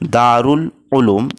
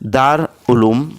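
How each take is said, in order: First: Dar is joined to uloom with an ul sound. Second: Dar runs straight into uloom without an ul. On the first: The speaker calls it right. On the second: The speaker calls it wrong.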